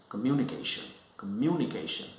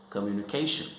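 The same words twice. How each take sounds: First: "communication" stressed early, on "mu". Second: "communication" stressed late, on "ca". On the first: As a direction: hit "mu" each time in "communication". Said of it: "So stress is on second syllable". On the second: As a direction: lean on "ca" in "communication". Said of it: "so the stress is on the third syllable". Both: Shown as a demonstration.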